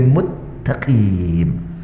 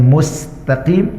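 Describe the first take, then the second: First: The middle consonant is a doubled t sound. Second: The middle consonant is an s sound. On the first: The speaker calls it wrong. "mengubahkan sin menjadi ta'" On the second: The speaker calls it right.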